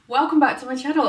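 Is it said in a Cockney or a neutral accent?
neutral. It is said in her neutral usual accent.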